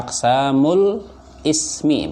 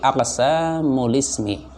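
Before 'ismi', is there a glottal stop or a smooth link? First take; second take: glottal stop; smooth link. First: A glottal stop separates ismi from the previous word. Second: Ismi links smoothly onto the previous word. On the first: The speaker calls it wrong. "Bukan aqsamul ismi, bukan" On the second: The speaker calls it right. "tapi aqsamul ismi"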